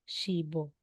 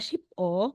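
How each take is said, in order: First: The final consonant links into the next syllable. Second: The final p stays separate before o. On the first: The speaker calls it right. "magiging shibo" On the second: The speaker calls it wrong. "aside na sheep o"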